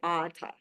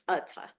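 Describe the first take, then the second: First: The word is said with English-style sounds. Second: The word is said with Sanskrit-style sounds. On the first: The speaker calls it wrong. "we tend to want to say Atha" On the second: The speaker calls it right. "It's Atha"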